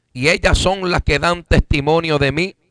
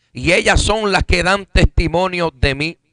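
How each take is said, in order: No difference in how they are said.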